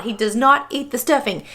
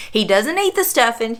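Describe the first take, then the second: First: "not" split off and punched; stress on not. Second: Said in the usual way. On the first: Shown as a demonstration. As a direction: lean hard on "not" to reassure viewers. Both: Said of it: "Y'all don't freak out".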